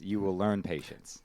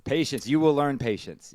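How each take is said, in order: First: Said in the usual way. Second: Mock sage advice. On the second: Mock wise advice to uncle.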